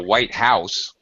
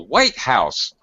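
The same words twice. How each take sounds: First: The pitch goes up onto House. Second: The pitch is high on White, low on House. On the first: "The intonation, the pitch goes up" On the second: It names the one famous building.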